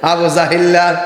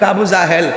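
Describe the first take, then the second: First: The name ends with a drawn-out 'illa' sound. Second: The name ends with a short 'el' sound. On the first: The name is deformed to show contempt. The speaker calls it right. "মায়া লাগে রে" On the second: The name is given its proper, respectful form. The speaker calls it wrong. "Abu জাহেল কি শুদ্ধ"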